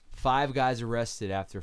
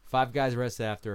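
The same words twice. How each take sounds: First: The phrase is spoken at a normal pace. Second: The phrase is spoken at a faster pace.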